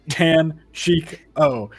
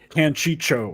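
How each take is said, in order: First: The last syllable starts with a k sound. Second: The last syllable starts with a ch sound. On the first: The speaker calls it right. "it's Tanchico for light's sake" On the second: The speaker calls it wrong. "not Tanchicho"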